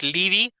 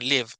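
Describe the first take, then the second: First: A vowel sound is heard after the v. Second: The word ends on the v sound. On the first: The speaker calls it wrong. "no es living" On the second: The speaker calls it right. "la E es muda al final"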